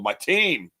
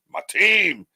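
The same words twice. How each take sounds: First: Said in the usual way. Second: TEAM pitched up and drawn out; emphatic TEAM. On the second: Real, not acted. Host names his crew to viewers, emphatic higher TEAM. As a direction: hit TEAM higher, stretching it proudly.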